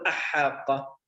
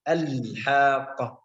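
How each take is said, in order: First: The L of the article is dropped. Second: The L of the article is clearly pronounced. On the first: The speaker calls it wrong. "لا نقول أحاقة" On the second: The speaker calls it right. "نظهر إظهار لام ال الحاقة هكذا"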